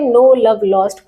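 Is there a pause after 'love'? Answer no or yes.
no. The phrase is said without a pause. No love was lost, so there is a lot of love. The speaker calls it wrong. "अगर इसको हम ऐसे पढ़े तो लग रहा है कि नो लव लॉस्ट"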